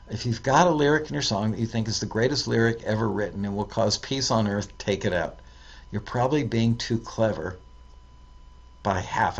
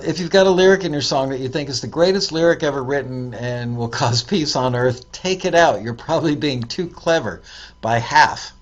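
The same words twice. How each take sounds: First: Fast, softer run-through; quick re-read. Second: Punchy emphatic reading of the tip. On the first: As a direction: skim it again under your breath. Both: Shown as a demonstration.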